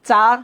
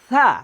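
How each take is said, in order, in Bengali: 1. প্রথম ব্যঞ্জনটি শক্ত, ch-এর মতো। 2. প্রথম ব্যঞ্জনটি পাতলা ও নরম। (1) "কেউ পড়ি আমরা চা" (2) "সঠিক উচ্চারণ হবে সা, একটু পাতলা হবে"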